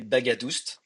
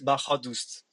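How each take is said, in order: First: The middle consonant is a hard G sound. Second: The middle consonant is an H sound. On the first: This is how it is said in France. "I come from France, and my name is you can you will say" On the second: This is the original Iranian pronunciation. "the right way to pronounce it will be a little bit different. The G H make a H sound"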